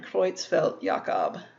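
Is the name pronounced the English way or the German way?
German. The name is said with German pronunciation. "That's how you would pronounce that in the German"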